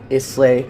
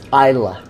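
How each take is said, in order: First: It is said in a non-Scottish way. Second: It is said the way a Scotsman would. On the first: The speaker calls it wrong. "it's not Islay" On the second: The speaker calls it right. "think of how a Scotsman would say it"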